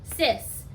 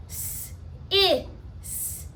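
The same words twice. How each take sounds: First: Said in the usual way. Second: "S, I, s" as three separate sounds, hissed s, short i, hissed s; segmented sounds. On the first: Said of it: "I'm gonna pound the syllable sis". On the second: Shown as a demonstration. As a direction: break "S, I, s" into isolated phonemes with pauses. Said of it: "There are three phonemes in that syllable".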